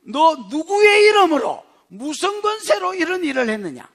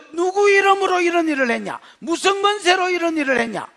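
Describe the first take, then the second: First: Accusing question. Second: Higher, contemptuous questioning; accusing tone. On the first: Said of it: "이 사람이 묻습니다". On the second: Council members interrogating apostles as if guilty, contemptuous. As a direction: treat them like criminals. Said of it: "죄나 지은 것처럼". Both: Acted.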